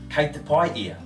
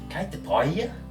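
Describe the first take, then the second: First: It is said with statement intonation. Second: It is said with question intonation. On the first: The person is reported to be good. "It's a statement, right?" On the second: The speaker asks with concern whether the person is alright. "So I ask"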